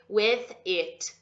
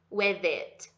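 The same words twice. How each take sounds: First: The two words are said separately, not linked. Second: The two words are joined into one smooth unit. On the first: The speaker calls it wrong. "Não vai fazer with it" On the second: The speaker calls it right. "Não, junta"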